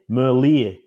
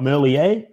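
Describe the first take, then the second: First: The name is said with a Flemish pronunciation. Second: The name is said with a French pronunciation. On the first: The speaker calls it right. "It's like the ear on the side of your head, Merlier. Because he's Flemish" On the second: The speaker calls it wrong. "he's not French, he's not Merlier"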